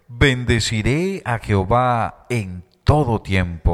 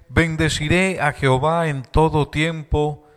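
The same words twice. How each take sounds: First: It is read a little more slowly. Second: It is read at a normal pace.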